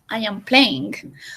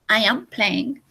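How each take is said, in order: First: The final g is pronounced strongly. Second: The final g is pronounced softly. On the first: The speaker calls it wrong. "So we don't say" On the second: The speaker calls it right. "We say... That G is not really strong"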